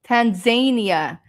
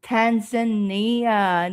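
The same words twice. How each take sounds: First: Tanzania said as tan-ZAY-nee-uh; Tanzania with a long A in ZAY. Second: Tanzania said slowly as tan-zuh-NEE-uh; Tanzania drawn out, NEE in the middle. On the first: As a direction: stress the second syllable of Tanzania, "zay". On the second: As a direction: stress the third syllable of Tanzania, "nee". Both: Shown as a demonstration. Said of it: "Is it Tanzania or Tanzania?".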